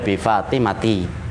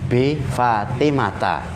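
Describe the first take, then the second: First: The final vowel is an 'i' sound. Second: The final vowel is an 'a' sound. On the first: The speaker calls it wrong. "nggak boleh" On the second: The speaker calls it right. "ciri khas mamnu minas sarfi, itu adalah dia kasrohnya dengan fathah"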